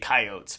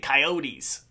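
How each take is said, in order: First: Coyotes is pronounced the regional Idaho way. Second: Coyotes is pronounced the way most others say it. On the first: "here in Idaho we say coyotes" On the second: "everywhere else people say coyotes"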